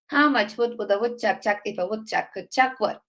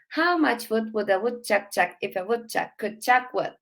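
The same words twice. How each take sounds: First: The sentence is spoken at a faster pace. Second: The sentence is spoken at a slow pace. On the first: "let me say it a bit faster" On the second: "one time slowly"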